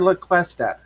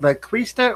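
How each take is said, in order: First: The name is pronounced like 'Cuesta'. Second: The name is pronounced like 'Quista'. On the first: The speaker calls it right. "Cuesta is correct" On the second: The speaker calls it wrong. "I've been pronouncing it the other way all this time"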